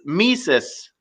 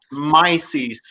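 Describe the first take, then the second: First: Mises said as "mee-sis"; correct pronunciation. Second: Mises said as "my-zeez"; wrong pronunciation. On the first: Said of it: "It's Mises". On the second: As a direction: Mises with long i and z. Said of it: "It's not Mises". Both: Shown as a demonstration.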